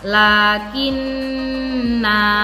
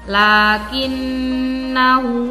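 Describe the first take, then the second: First: The vowel after the n is held two beats. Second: The vowel after the n is short. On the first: The reader stops at this word. "dipanjangkan dua ketukan atau dua harokat" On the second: The reading continues without stopping. "nun dibaca pendek kalau kita membacanya lanjut"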